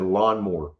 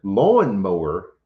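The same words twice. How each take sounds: First: LAWNMOWER collapsed to "LAHN-more"; childhood pronunciation. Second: LAWNMOWER drawn out slowly as "LAWN-mow-er"; correct pronunciation. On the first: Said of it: "but we always said". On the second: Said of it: "is the correct pronunciation". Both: Shown as a demonstration.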